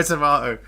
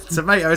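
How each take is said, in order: First: Tomato as to-MAH-to; British-style tomato. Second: Tomato as to-MAY-to, slightly raised; American-style tomato. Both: Shown as a demonstration. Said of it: "It's all the same".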